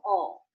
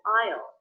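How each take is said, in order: First: The vowel is reduced to an 'aw' sound. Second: The vowel is the full 'eye' sound. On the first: "I said all, I use the aw as in law vowel" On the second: "I didn't say I'll"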